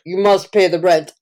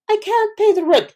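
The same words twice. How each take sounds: First: Melodrama villain. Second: High pleading victim voice; damsel in distress. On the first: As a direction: threaten her like a stage landlord. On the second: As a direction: squeal it like a helpless heroine. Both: Retold or imitated. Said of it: "vaudeville plays where you're like".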